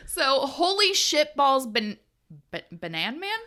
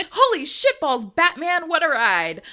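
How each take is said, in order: First: Banan Man stumbled out as ba-, Banan Man; a fumbled first take of Batman that comes out Banan Man; stumbled misreading. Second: Holy shitballs, Batman read cleanly, a bit louder; a clean, lively retake with Batman said right; proper second take. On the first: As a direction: trip over Batman and read it as Banan Man. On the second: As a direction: nail Batman clearly on the retry. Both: Real, not acted. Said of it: "So, take two".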